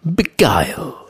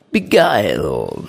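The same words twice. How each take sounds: First: Said in the usual way. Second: Beguile drawn out low and slow; savoured slowly. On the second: Shown as a demonstration. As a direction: linger over Beguile, dropping the pitch. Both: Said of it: "The word is beguile".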